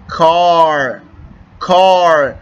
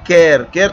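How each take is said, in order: First: The vowel sounds like a long 'aa'. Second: The vowel sounds like 'ay'. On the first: The speaker calls it right. "الف مد آ کا آواز یہاں پر نکالتا ہوں" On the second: The speaker calls it wrong. "کیر کیر تو نہیں بول سکتا"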